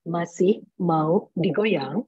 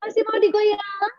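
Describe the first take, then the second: First: Very slow, restrained formal MC; misplaced formality. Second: High-pitched, drawn-out party call; dangdut MC. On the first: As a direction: ask it stiffly, word by word. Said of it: "tapi kita bawainnya formal". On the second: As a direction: rouse the crowd like a dangdut host. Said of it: "pasti bilangnya". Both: Shown as a demonstration.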